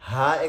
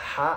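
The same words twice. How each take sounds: First: The h is open and loud. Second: The h is pressed in the throat. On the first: "মুখ খুলে বড় আওয়াজে উচ্চারণ করবেন" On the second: "গলাকে হালকা একটু চেপে রেখে"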